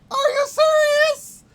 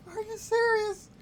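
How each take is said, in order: First: Very high, slow, loud shout of disbelief; frustrated shout. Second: High-pitched, held-back incredulous question; high disbelief. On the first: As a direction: scream it, stretching the words. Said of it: "Sorry that I'm yelling". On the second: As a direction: squeak it out high without yelling. Disbelief at failed game landing. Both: Real, not acted.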